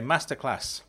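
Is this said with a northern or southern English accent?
northern. It is said in a northern English accent.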